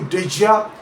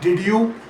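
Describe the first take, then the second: First: The d and y blend into j. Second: The d and y stay separate sounds. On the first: "It comes out much closer to did ya" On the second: "almost never sounds like did you in natural speech"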